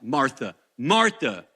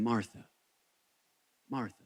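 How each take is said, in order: First: It is said harshly, like a rebuke. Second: It is said gently and tenderly.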